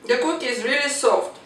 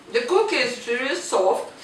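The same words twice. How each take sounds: First: Said in the usual way. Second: Talking with a full mouth; words round a bite of cookie. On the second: Real, not acted. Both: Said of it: "I'm talking with the full mouth".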